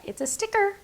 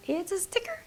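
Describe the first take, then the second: First: Excited. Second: Soft unvoiced whisper, lifting at the end; whispered repeat. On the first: Showing a die cut to viewers. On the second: Crafter to viewers, whispering the reveal again. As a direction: echo it as a secret. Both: Real, not acted.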